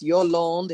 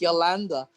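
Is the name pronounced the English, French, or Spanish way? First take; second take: French; Spanish. First: The name is pronounced the French way. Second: The name is pronounced the Spanish way. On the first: "If you want to say it in French" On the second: "if you want to say it in Spanish"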